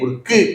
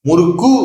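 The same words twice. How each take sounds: First: The final u is short, only half length. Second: The final u is full, with rounded lips. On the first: The speaker calls it right. "முறுக்கு கு அப்படிம்பாங்க" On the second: The speaker calls it wrong. "முறுக்கு அப்படின்னு சொல்ல மாட்டாங்க"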